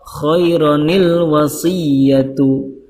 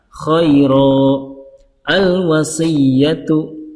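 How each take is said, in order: First: The words are linked with an added nun sound. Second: It stops between the words, without the nun sound. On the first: "kalau di wasol" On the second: "Kalau diwaqafkan"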